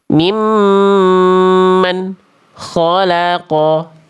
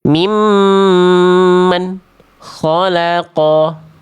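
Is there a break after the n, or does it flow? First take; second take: break; break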